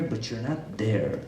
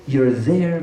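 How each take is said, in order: First: A quiet, heavy not there; softly, slowly, almost to yourself; dropped low and soft. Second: Said in the usual way. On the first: Shown as a demonstration. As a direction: say it slow and hushed, letting not sink. Contrasting presence with absence.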